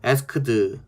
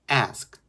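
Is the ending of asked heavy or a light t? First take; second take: heavy; light t. First: The word ends with a heavy, full final sound. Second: The word ends with a very light t sound. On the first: The speaker calls it wrong. "asked 이렇게 하는 것보다는" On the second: The speaker calls it right. "트 발음 한 번만 해주만"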